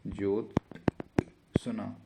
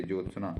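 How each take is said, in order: First: Jyotsna split into slow, separate parts; very slow sounding-out. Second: Said in the usual way. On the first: Shown as a demonstration. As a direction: break Jyotsna after ज्योत, then सना. Teacher sounds out the word. (Jyotsna को बहुत धीरे तोड़कर)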